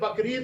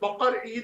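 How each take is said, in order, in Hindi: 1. यह नाम एक ही शब्द की तरह जुड़ा हुआ बोला जाता है। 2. यह नाम दो अलग शब्दों में बँटा हुआ बोला जाता है। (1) "असल में ये बकरीद नहीं है" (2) "बल्कि बकर ईद है"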